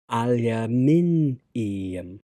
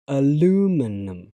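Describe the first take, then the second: First: Five syllables, stress on the third syllable. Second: Four syllables, stress on the second syllable. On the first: "In British English, it's on the third syllable" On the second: "on American pronunciation, it's on the second syllable"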